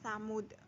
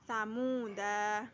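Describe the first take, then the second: First: The word ends with a bare consonant. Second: The word ends with a short vowel. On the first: The reader stops on this word. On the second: The reading continues without stopping.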